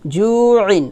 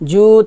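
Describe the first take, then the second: First: The word ends with an added -in sound. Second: The vowel is stretched and the word stops. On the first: The reciter continues without stopping. "জু মধ্যে হরফ আইন দুই জেরে ইন" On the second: The reciter stops at this word. "যদি ওয়াকফ দিই তাহলে হবে ... তিন আলিফ টান দিয়ে"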